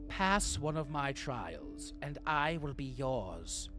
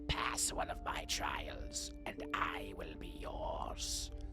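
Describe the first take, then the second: First: It is read in a plain, ordinary voice. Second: It is read in a rough, raspy voice.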